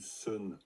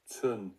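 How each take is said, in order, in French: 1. Le mot commence par un simple son s. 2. Le mot commence par un son ts. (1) "j'ai entendu sun, sun, sun. Et c'est vraiment pas du" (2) "attention, tsun, tsun"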